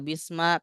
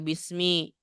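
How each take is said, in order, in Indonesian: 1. Kata itu diakhiri vokal a. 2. Kata itu diakhiri vokal i. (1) "nggak boleh dibaca bisma" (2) "makanya harus dibaca bismi"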